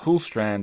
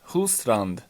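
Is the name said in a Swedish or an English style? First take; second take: English; Swedish. First: The name is said with an English-style pronunciation. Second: The name is said with a Swedish-style pronunciation. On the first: This is how the name's owner likely says it. "as she probably pronounces it, even though she has Swedish ancestry" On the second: This is how the speaker says the name. "as I pronounce it"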